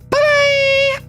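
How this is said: It is said in a shrill, high voice.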